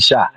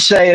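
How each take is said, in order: First: The name has the vowel of 'sky'. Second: The name has the vowel of 'day'. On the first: It follows how the name is spelled. "it looks like it should be shy" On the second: It follows what everybody else says. "If everybody's saying Shay, I say Shay"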